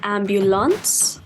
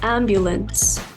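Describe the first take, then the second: First: The last syllable sounds like 'lance'. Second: The last syllable sounds like 'lens'. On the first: The speaker calls it wrong. "I have heard people say ambulance" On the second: The speaker calls it right. "but it's a lens"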